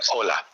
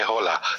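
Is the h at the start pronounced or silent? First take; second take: silent; pronounced. First: The word begins directly with the vowel o. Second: The word begins with an audible h sound. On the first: The speaker calls it right. "Say hola" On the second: The speaker calls it wrong. "don't pronounce, don't say hola"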